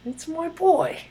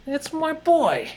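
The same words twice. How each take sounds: First: Much higher put-on voice, quicker; hammed-up high movie voice; second try at the impression. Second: Slow, much higher put-on voice; lightly hammed movie-guy voice; movie character impression. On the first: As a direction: squeak it out as a sillier retry. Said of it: "I don't know what the hell I was doing there". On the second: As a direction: stretch it out in a goofy high voice. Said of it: "that impression I was doing".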